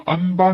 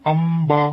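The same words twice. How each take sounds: First: Said in the usual way. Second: अम्बा with a clear m before b. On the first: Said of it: "नहीं है". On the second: Shown as a demonstration. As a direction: say अम्बा, not अनबा. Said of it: "यह है". (अम्बा मीम से)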